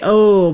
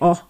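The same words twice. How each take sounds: First: The vowel glides with an extra piece, American-style. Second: The vowel is short and pure, Scandinavian-style.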